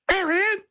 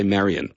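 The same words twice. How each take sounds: First: Very high parrot screech of a name; cockatoo call. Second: Said in the usual way. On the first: Retold or imitated. Radio guest imitating the caged cockatoo saying the mother's name, high screech. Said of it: "the cockatoo could also say".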